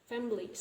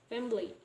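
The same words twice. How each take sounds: Both takes have the same delivery.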